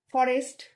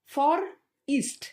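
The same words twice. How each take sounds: First: Said in the usual way. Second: ফর ইস্ট said slowly in two parts, for then east; syllables split. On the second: Shown as a demonstration. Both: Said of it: "তারপর ফরেস্ট".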